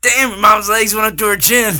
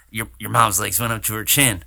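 First: High, loud hammed-up Swayze line; shouted Swayze impression. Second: Swayze impression. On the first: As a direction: belt it out as a cocky Swayze. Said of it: "Trying too hard on your Swayze". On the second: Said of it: "It's more like a".

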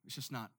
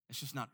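Both takes have the same delivery.

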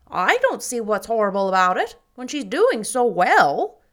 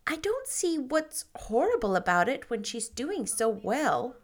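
First: Much louder, emphatic, pushing on doing; emphatic Mrs Lynde. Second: Said in the usual way. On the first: Acted. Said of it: "said Missus Lynde emphatically". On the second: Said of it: "Oh, pardon me".

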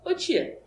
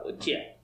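First: "ô tia" called out high; high-pitched call of "ô tia"; intonation demo. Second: "ô tia" dropped soft and toneless; hushed, understated "ô tia"; contrasting intonation demo. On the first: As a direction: say "ô tia" in a raised, lifted pitch. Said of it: "é a entonação. Porque tu fala". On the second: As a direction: say "ô tia" very quietly, without lift. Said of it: "é uma coisa, tu fala". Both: Shown as a demonstration.

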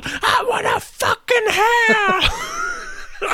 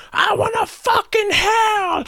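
First: Very high mock scream dragged out very slowly with laughter breaking in; screaming demand. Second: Very high, slow, strained mock scream; screaming demand. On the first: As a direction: stretch the scream out until you crack up. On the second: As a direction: scream it like a man storming into the club. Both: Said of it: "just screaming as soon as he got in there".

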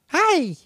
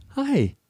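First: Put-on very high, chirpy toddler hi; imitating a little girl's greeting. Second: Put-on tiny high-pitched hi, as if to a toddler; retold adoring little hi; melted hello. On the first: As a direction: squeak it out like a delighted small child. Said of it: "She's like". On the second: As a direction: coo a greeting at a cute child. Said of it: "like, melted by her".

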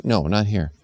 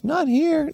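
First: Said in the usual way. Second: Put-on high, quick child voice. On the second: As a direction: blurt it like a little kid. Kid interrupting mom.

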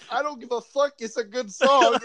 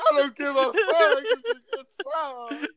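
First: High, pained defiant line; mock defiance. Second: High, sobbing line breaking into tears; laugh-crying. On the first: Heartbroken listener shrugging off the song, high and pained. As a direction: pretend you don't care while it hurts. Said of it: "you're like". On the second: Acted. Heartbroken guy insisting it's a good song while sobbing. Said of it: "bawling your eyes out".

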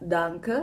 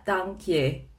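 First: "danke" said slowly, plain German DAHN-keh. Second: "dankje" said slowly as Dutch DAHNK-yuh. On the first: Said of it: "Misalnya kayak danke". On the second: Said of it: "tapi tulisannya dankje". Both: Shown as a demonstration.

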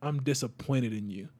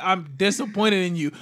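First: Low, quiet disappointed father; disappointed dad. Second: Lightly voiced disappointed father; just a hint of the dad; retold dad. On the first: Retold or imitated. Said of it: "my dad looked at me and was just like". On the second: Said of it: "My dad looked at me and literally was like".

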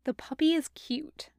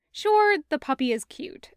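First: Breathy whisper, higher. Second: Said in the usual way. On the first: A narrator's reading. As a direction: whisper it like a secret. Whispered then repeated aloud.

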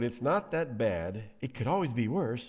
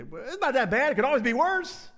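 First: Understated mock consolation. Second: High, loud, squeaky-clueless consolation; hammed-up chipper brush-off of someone's pain; mock counseling. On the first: Elkanah offering his wife the old line, understated mock comfort. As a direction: mildly imitate a tired platitude. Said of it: "The old". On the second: Somebody counseling a person going through pain, mock cheer. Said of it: "our default counseling".

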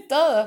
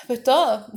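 First: Louder, higher, punched; emphatic. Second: Much higher, laughing through the word; real laugh breaking in. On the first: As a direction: hit Todo hard and high. Emphatic repeat after laughing. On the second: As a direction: chuckle it out helplessly. Laughing at the chaos. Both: Real, not acted.

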